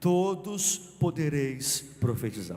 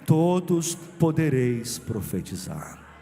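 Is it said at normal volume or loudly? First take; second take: normal volume; loudly. First: It is said at normal volume. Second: It is said louder and stronger.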